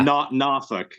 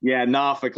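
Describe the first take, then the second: First: "Norfolk" said as outsiders say it, NOR-folk; "Norfolk" with a full folk ending; wrong Norfolk. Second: "Norfolk" said the local way, NAH-fuk; "Norfolk" clipped to two short syllables. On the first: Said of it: "There you go". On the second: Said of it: "Let me get my Tidewater accent going on". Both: Shown as a demonstration.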